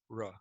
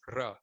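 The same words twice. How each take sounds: First: The R is soft, with no tongue flapping. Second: The R is a harsh, rolled trill. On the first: This is how the R sounds in English. "a much softer R where you're not flapping your tongue" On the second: This is how Spanish speakers say the R. "it's a harsh rolled R"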